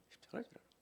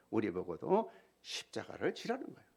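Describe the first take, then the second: First: 십자가를 whispered unvoiced. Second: Said in the usual way. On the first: Real, not acted. Repeat whispered. (십자가를 속삭이듯)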